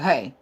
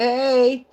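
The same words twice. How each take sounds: First: The greeting sounds curt and angry. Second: The greeting sounds calm and neutral. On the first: The speaker is upset with the listener. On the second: The speaker is simply greeting someone.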